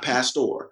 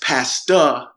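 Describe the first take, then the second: First: The word ends with a clear r sound. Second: The word ends in 'ah' without an r. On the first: This is not how the handle is said. The speaker calls it wrong. "not Pastor" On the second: This is how the handle is spelled and said. The speaker calls it right.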